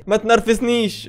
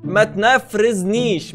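First: Giggling as you copy "ما تنرفزنيش"; laughing imitation. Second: Slow "تنفرزنيش" with r and f swapped, said "tnæfrezniʃ"; mock mispronunciation. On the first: Host laughing as he copies the clip's line. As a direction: laugh through "ما تنرفزنيش" while mimicking the clip. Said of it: "وبيقولها بثقه قوي". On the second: Host copying the clip's swapped letters in "تنفرزنيش", slowly. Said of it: "معلش، تاني".

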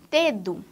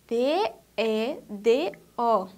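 First: Said in the usual way. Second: D E D O, each letter named slowly and apart; slow letter-by-letter spelling for children; spelled out. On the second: Shown as a demonstration.

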